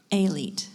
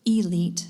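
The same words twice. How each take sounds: First: "Elite" opening on ay, "ay-LEET"; alternate pronunciation. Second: "Elite" opening on a long ee, "ee-LEET"; alternate pronunciation. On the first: Pronouncer giving the speller another option, "Elite" as ay-LEET. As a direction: say "Elite" with an ay sound at the start. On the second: Pronouncer offering the speller an alternate pronunciation, "Elite" as ee-LEET. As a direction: say "Elite" with a clear ee at the start. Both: Shown as a demonstration. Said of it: "an alternate pronunciation".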